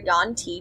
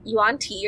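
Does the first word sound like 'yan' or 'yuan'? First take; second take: yan; yuan. First: The first word is said as 'yan'. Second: The first word is said as 'yuan'. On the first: This is the speaker's own way of saying it. "I say Yan" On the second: Some other people say it this way. "some people say Yuan"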